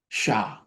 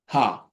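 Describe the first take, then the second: First: It begins with a hushing sh sound. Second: It begins with a breathy h sound. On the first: "Some people say with S H sound" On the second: "it's like the H"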